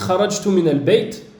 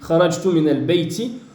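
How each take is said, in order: First: The last word ends on a bare t sound. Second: The last word ends with an added short i vowel.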